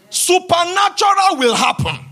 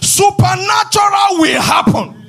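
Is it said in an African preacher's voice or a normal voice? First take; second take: normal voice; African preacher. First: It is said in his normal voice. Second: It is said in an African preacher's voice.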